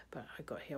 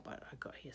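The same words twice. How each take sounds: First: Said in the usual way. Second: Whisper. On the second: Shown as a demonstration. Repeats the line as a whisper.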